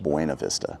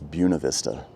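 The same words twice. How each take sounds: First: The name is said in an outsider pronunciation. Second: The name is said in the local pronunciation. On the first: This is how visitors might say it. The speaker calls it wrong. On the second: This is how residents say it. The speaker calls it right. "The way they pronounce it here is"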